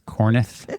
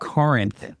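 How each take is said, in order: First: The second syllable sounds like 'neth'. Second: The second syllable sounds like 'rinth'. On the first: The speaker calls it wrong. "she says Corneth" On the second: The speaker calls it right. "it's Corinth, like Corinthians"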